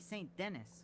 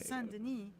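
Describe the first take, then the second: First: The name is pronounced the American way. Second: The name is pronounced the French way. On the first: "if it was in American, it would be" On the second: "You're pronouncing the city in the French way"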